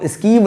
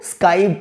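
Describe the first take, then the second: First: स्कीव read with a long ee, as the wrong way; the mistaken reading स्कीव with an ee sound; wrong pronunciation. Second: स्काइव said with an "eye" sound, skaiv; the proper reading स्काइव, skaiv with a long i; correct pronunciation. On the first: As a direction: say स्कीव like "skeev", not the right way. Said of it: "इसको स्कीव नहीं पढ़ना". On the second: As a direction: make स्काइव rhyme with five. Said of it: "इसको स्काइव पढ़ना है". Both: Shown as a demonstration.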